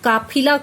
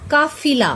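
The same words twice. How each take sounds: First: The middle consonant is an aspirated p. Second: The middle consonant is an f sound. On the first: The speaker calls it wrong. "काफिला कुछ नहीं होता" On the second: The speaker calls it right. "फ के नीचे नुक्ता लगाकर बन गया काफिला"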